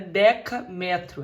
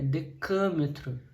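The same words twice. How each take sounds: First: The stress falls on the syllable 'me'. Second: The stress falls on the syllable 'ca'. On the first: The speaker calls it wrong. "Não é decâmetro" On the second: The speaker calls it right. "é decâmetro"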